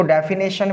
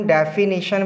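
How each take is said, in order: First: "डेफिनेशन" ending in "nay-shun"; wrong pronunciation. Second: "डेफिनेशन" ending in "ni-shun", no ay sound; correct pronunciation. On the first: Teacher quoting students' error, "डेफिनेशन" said as defi-nay-shun. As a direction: say "डेफिनेशन" with an ay sound in the third syllable. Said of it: "जबकि ये हमारा जो pronunciation है". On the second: Teacher confirming the correction, "डेफिनेशन" said as defi-ni-shun. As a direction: say "डेफिनेशन" with a short i in the third syllable. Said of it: "इसे हम डेफिनेशन बोलते हैं". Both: Shown as a demonstration.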